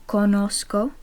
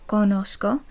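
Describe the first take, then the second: Both takes have the same delivery.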